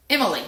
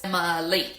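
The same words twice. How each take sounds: First: Said in the usual way. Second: "Emily" in three separate beats; three syllables. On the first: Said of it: "let's say the word". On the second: Shown as a demonstration. Teacher counting three syllables, beat-by-beat Emily. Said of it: "There are three syllables".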